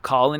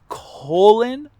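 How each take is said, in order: First: The first vowel is short, as in 'collar'. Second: The first vowel is long, as in 'colon'. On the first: The speaker calls it wrong. "It's not Colin" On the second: The speaker calls it right. "like butthole"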